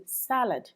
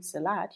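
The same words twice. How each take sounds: First: "salad" stressed on the first syllable, SAL-ud; correct first-syllable stress. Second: "salad" stressed on the second syllable, suh-LAHD; weak start on "salad", stress the ending; wrong-syllable stress. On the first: Teacher giving the corrected version, first-syllable stress on "salad". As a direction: lean on the start of "salad", let the end drop. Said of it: "you say salad". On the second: Teacher quoting what not to say, second-syllable stress on "salad". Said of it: "instead of saying salad". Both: Shown as a demonstration.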